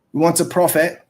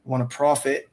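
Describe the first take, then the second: First: "We want to profit" said louder, each word firm; stressed want to profit. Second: Said in the usual way. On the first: Shown as a demonstration. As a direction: punch "want to" hard and clear.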